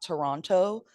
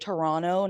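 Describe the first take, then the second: First: The second T sound is clearly pronounced. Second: The second T sound is dropped. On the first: This is how outsiders say it. The speaker calls it wrong. "not Toronto" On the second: This is how people from the city say it. The speaker calls it right. "people who are from there say Toronto ... take the second T out"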